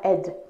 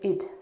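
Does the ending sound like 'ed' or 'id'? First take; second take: ed; id. First: The ending has an open 'e' vowel. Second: The ending has a short 'i' vowel. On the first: The speaker calls it wrong. "à pas faire ed, comme on peut l'entendre souvent" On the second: The speaker calls it right. "mais id"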